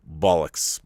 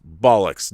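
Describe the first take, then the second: First: Said in the usual way. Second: Louder, a firm dismissive bark; emphatic. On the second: Real, not acted. Veteran loudly dismissing the stiff upper lip myth. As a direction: spit it out with force.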